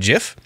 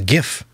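First: It begins with a soft g sound. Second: It begins with a hard g sound. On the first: The speaker calls it wrong. "the inventor of a GIF calls it a GIF, but he's wrong" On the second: The speaker calls it right. "It's a GIF, graphics interchange format"

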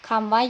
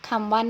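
The two takes are said the same way.

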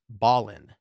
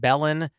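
First: The first syllable sounds like 'ball'. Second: The first syllable sounds like 'bell'. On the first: The speaker calls it right. "I believe it's Ballin" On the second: The speaker calls it wrong. "I pronounced it Belen"

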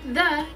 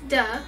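First: The word begins with a soft 'th' sound. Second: The word begins with a hard 'd' sound. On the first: "the TH sound" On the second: "is now a D sound"

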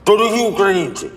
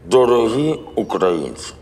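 First: It is spoken quickly, like a tongue twister. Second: It is spoken at a slow, measured pace.

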